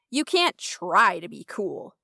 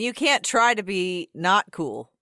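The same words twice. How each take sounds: First: "try" lifted and drawn out; stress on TRY. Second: "not" punched louder; stress on NOT. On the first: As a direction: lean on the word "try". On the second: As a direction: lean hard on "not" before "cool". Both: Real, not acted. Contrast: cool versus not cool.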